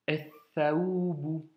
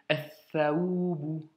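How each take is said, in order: No difference in how they are said.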